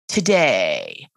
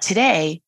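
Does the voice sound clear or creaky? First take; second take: creaky; clear. First: The voice drops low and creaks. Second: The voice stays clear and smooth throughout. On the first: "but today" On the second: "It's not today"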